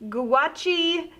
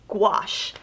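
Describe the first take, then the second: First: It does not sound like 'wash' with G. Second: It sounds like 'wash' with G in front. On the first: The speaker calls it wrong. "I can't tell you how many times I've heard" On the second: The speaker calls it right. "just like you're washing your clothes in the washing machine, but with a G in front of it"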